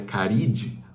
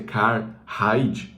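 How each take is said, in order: First: No h sound is heard after the first syllable. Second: An h sound is heard after the first syllable. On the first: "ou se é Caride" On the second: "eu não sei se é Carhide, porque é um H"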